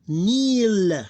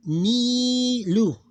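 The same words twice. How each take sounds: First: Nil as one long, high, loud syllable closed on L; sukoon ending, vowel dropped. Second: Nilu as a loud, high, long "nii" and short "lu"; long then short syllable. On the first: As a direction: hold Nil long and end on the bare L. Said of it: "We ignore this vowel". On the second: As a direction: stretch the first syllable of Nilu, then a quick "lu". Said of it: "Long sound, short sound". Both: Shown as a demonstration.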